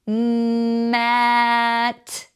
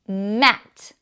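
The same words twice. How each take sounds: First: Each sound is held and run into the next. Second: The sounds are said quickly as one word.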